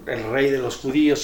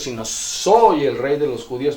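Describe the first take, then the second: First: Said in the usual way. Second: "soy" lifted and rising, a bit louder; stress on soy. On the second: Shown as a demonstration. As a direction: lean on the word "soy" to set it against the title.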